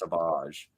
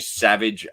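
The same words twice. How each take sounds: First: It is said with a French-sounding twang. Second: It is said the plain English way. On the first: The speaker calls it right. "It has a French twang" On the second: The speaker calls it wrong. "Why are you Savage Opress?"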